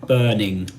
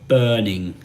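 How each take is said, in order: Both takes have the same delivery.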